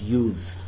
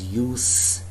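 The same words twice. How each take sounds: First: It is pronounced the way the verb is. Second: It is pronounced the way the noun is. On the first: The word names an action. "but use. ... This time I'm using this word as a verb" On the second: The word names a thing. "This time I'm not pronouncing this word as use"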